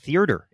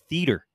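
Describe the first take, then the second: First: An extra r sound is inserted mid-word. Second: No extra r sound is inserted mid-word. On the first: The speaker calls it wrong. "You're inventing an R. It's not T-H-E-A-R-T-E-R. It's not theater" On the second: The speaker calls it right. "It's theater"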